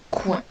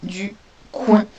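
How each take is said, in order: First: Said in the usual way. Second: Coin said firmly and louder; dictating coin with a firm push; dictation stress. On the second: Shown as a demonstration. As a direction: press on coin for the pupils. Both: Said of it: "Le premier mot".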